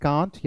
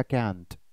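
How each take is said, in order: First: Long open vowel in can't, "kaant"; can't rhyming with aunt, ah vowel. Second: Can't with a flat "a" as in cat; short front vowel in can't. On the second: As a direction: say can't the American way, kant. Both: Shown as a demonstration. Teacher shows two accepted pronunciations.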